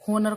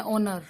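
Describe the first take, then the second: First: होनर with a sounded h at the start; H pronounced. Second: ओनर with no h, starting on the vowel; silent H. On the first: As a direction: begin होनर on an audible h. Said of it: "होनर को बोलते हैं ओनर". (होनर, शुरू में 'ह' बोलकर) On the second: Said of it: "H जो है इसके अंदर साइलेंट". (ओनर, शुरू में 'ह' चुप) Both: Shown as a demonstration.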